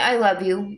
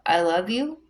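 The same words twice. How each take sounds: First: The voice falls at the end, said tenderly. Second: The voice rises at the end, like a question.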